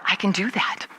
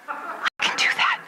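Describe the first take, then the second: First: Said in the usual way. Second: High, slow, airy little squeak; eager squeak. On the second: Acted. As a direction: squeak it slowly like a secret brainwave. Repeats the thought, squeaky and eager.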